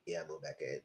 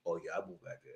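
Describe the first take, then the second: First: Deep soft lazy drone; mock husband. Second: Much lower, softer dopey mumble; low lazy mumble, mocking a lie; mock husband. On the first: Vlogger mocking the husband again, in a low bored drone. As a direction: mumble it low like a bored liar. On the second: Vlogger mocking the husband's claim, in a low lazy mumble.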